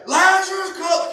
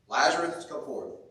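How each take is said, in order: First: It is shouted loudly. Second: It is spoken calmly.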